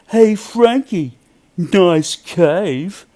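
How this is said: It is said with a mocking, sarcastic tone.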